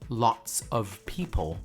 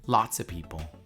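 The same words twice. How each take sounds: First: Lots of is said as two full words. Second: Lots of is reduced to one word, lotsa. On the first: "instead of saying lots of people" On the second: "you say lots of people"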